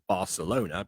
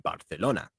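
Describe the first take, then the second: First: It is pronounced the usual English way. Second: It is pronounced the way people in Spain say it. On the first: It is how everyone else says the city's name. "they would say as Barcelona because that's how everyone says it" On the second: It is how locals say the city's name. "the way that you would, you know, either in Barcelona itself or in Spain"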